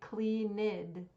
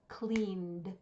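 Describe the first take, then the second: First: The word is said with two syllables. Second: The word is said with one syllable. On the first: The speaker calls it wrong. "Do not say cleaned. That's incorrect" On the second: The speaker calls it right. "it should only have one syllable"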